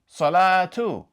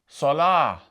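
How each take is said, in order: First: It ends with a t sound and vowel. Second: It ends softly with an h sound. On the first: "they pronounced it like this" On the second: "without pronouncing a haraka at the end, it's going to sound like this"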